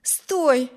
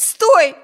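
First: Said in the usual way. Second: Much louder, higher stop; desperate shout. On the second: A narrator's reading. Amy screaming at her brother to stop the pony, desperate shout. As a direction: cry it out with all force. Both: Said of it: "воскликнула она".

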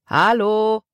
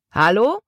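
First: Drawn-out hello held on a high level note; called out. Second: Rising, questioning shout of hello; called out. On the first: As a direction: hail the ship, holding the last vowel. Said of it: "rief der Mann noch einmal". (lang gezogen gerufen) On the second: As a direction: call up to the ship, pitch climbing. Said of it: "rief der große Mann". (fragend gerufen) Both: A narrator's reading.

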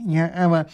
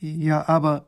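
First: Higher-pitched professor echoing the objection; puzzled minister. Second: Put-on higher-pitched young royal, hesitating; puzzled princess. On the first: Minister echoing the princess, puzzled. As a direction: echo it in flustered puzzlement. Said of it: "sagt der Minister". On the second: Princess faltering at the soldier's news, puzzled. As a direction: begin an objection, at a loss. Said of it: "sagt die Prinzessin". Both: A narrator's reading.

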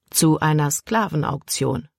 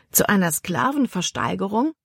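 First: "Zu einer Sklavenauktion" as a plain statement, falling at the end. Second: "Zu einer Sklavenversteigerung" as a question, rising steeply at the end; questioning echo. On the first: Caleb answers Libby about where they are, falling statement. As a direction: state "Sklavenauktion" with a closing fall. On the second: Libby repeats Caleb's answer back to him, rising question. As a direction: query "Sklavenversteigerung" with a swooping final rise. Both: A narrator's reading.

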